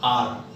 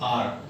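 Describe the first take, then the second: No difference in how they are said.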